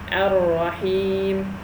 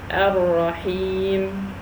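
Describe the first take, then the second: First: The word ends on the consonant m. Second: The word ends on the consonant m.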